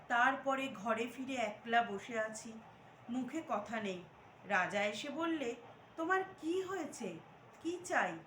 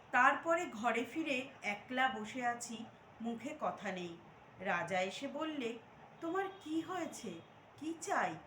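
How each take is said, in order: No difference in how they are said.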